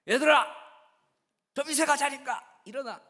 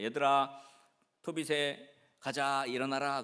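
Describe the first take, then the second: First: It is said in a louder, raised voice. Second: It is said at a normal, calm volume.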